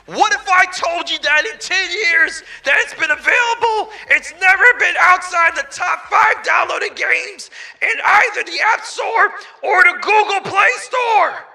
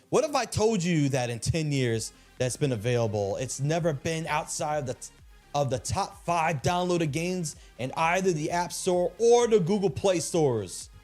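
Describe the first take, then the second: First: It is said in a special put-on voice. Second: It is said in his normal voice.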